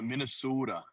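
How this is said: It is said in a Minnesota accent.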